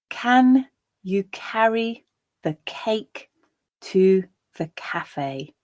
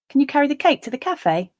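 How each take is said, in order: First: The sentence is spoken slowly and deliberately. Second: The sentence is spoken at a natural speed. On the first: "I'll read the sentence once, slowly" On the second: "a second time at a more natural pace"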